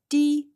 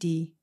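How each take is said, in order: First: The word is said on a high level tone. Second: The word is said on a low level tone. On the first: It means tongue. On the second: It means neck.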